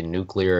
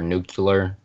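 First: Said in the usual way. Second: Nuclear said as "NOO-kyuh-ler"; nuclear with an extra syllable, nucular; alternate pronunciation. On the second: Shown as a demonstration. Showing how people say it, nuclear as "nucular". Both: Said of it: "depending on how they say".

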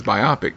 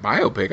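First: "biopic" said bye-AH-pick with a short AH; "biopic" rhyming with myopic; short o pronunciation. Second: "Biopic" said bye-OH-pick, with a questioning tone; "Biopic" with a long OH in the middle; long o pronunciation. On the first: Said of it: "I thought it was biopic". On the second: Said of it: "heard somebody say biopic". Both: Retold or imitated.

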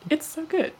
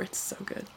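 First: High, bright emphatic praise; excited. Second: Whispering. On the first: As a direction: say it with a delighted lift. Repeated praise, second take. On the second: Repeated praise, first take. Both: Real, not acted.

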